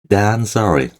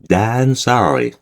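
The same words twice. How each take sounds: The two takes are said the same way.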